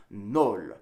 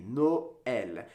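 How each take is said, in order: First: "nol" as one syllable; vowels run together. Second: "Noël" in two separate syllables, no-el; vowels split up. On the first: Teacher showing Noël without the tréma, one-syllable "nol". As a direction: merge the vowels into a single "nol". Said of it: "would be pronounced". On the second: Teacher showing what the tréma does, "Noël" split no-el. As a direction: break "Noël" apart, each vowel on its own. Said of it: "pronounce each vowel independently". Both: Shown as a demonstration.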